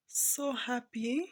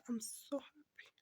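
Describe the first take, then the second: First: So happy stretched out slowly, rising at the end; slow, drawn-out happy. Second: Whisper. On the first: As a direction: linger on So happy with a lift. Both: Real, not acted. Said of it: "I'm a proud mother".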